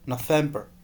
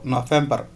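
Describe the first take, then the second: First: The r is not rolled. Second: The r is strongly rolled.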